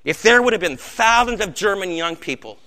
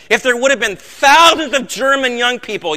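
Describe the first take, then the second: First: Said in the usual way. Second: Put-on louder and higher, the words thousands of German young people driven hard; louder, higher preaching. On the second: Shown as a demonstration. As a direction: preach the line with rising force.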